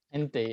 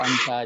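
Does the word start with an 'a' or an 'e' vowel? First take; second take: e; a. First: The vowels are both 'e' sounds. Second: The vowels are both 'a' sounds. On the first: It is a colloquial slang form. The speaker calls it wrong. "itu itu slang je lah tu" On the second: It is how Arabs actually say it. The speaker calls it right.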